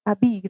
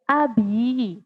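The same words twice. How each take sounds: First: The word is said short and clipped. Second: The word is said with a lengthened sound. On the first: The speaker calls it wrong. "tidak hanya abi. Abi gitu, tidak ya" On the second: The speaker calls it right. "Lebih panjang"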